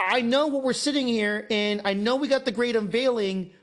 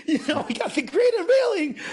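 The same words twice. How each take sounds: First: Said in the usual way. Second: Laughing through the words, pitch jumping up; laughing as you say it. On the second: Real, not acted.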